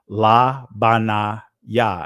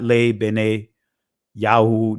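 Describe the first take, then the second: First: All the vowels are open 'a' sounds. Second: The vowels are 'e' sounds, ending in 'oo'. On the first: This is the ancient pronunciation. The speaker calls it right. "I'm pronouncing it in ancient Hebrew" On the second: This is a later, influenced pronunciation. The speaker calls it wrong. "not Le Bene Yahoo, not that this is still influenced"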